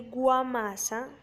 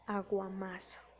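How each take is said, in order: First: The first a sound is dropped. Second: The word begins with an a sound. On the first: The speaker calls it wrong. "se está suprimiendo el fonema A" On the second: The speaker calls it right. "se debería decir aguamasa"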